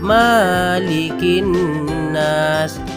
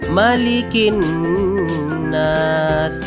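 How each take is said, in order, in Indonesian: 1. Vokal pertama 'ma' dibaca panjang. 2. Vokal pertama 'ma' pendek. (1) "huruf ma dibaca panjang" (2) "Ma itu pendek"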